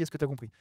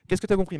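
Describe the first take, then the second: First: Said in the usual way. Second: Qu'est-ce que t'as compris asked clearly with a falling tune; right way. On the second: Shown as a demonstration. To the trainees, showing the better question clearly. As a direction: open with Qu'est-ce que and put it plainly. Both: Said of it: "parce que souvent on dit".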